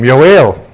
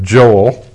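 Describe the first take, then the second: First: The name begins with a Y sound. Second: The name begins with a J sound. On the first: This is the original Hebrew form of the name. "That's how it's pronounced in Hebrew" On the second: "Us Gentiles call him Joel"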